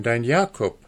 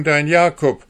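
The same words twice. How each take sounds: First: Gentle pleading, near his usual voice. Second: High, loud sneering echo of his words; mocking. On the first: Jakob begging his mother to recognise him, gentle pleading. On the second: Hanne mockingly repeating the dwarf's claim, loud scorn. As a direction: throw his own words back at him with scorn. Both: A narrator's reading.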